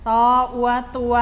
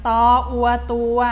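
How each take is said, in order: Both takes have the same delivery.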